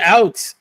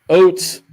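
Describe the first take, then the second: First: The word is said with a plain American vowel. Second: The word is said with a Canadian-style vowel. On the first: "You said out" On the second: "I actually did hear your Canadian accent come out"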